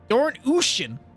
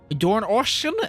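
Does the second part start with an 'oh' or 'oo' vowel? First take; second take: oo; oh. First: The second part starts with an 'oo' vowel. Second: The second part starts with an 'oh' vowel. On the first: The speaker calls it right. "the O is like an U" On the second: The speaker calls it wrong. "Am I am I saying that right? I'm not"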